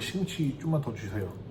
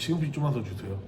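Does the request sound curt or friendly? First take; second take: friendly; curt. First: It is said warmly, with a smile. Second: It is said flatly and bluntly. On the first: The speaker comes across as pleasant and likeable. The speaker calls it right. "웃으면서 이야기를 할 줄 아는" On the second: The speaker comes across as unfriendly. The speaker calls it wrong. "무뚝뚝하게"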